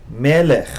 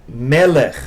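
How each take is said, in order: Both takes have the same delivery.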